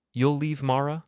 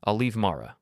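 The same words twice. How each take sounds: First: Incredulous. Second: Said in the usual way. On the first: Acted. Father incredulous repeat.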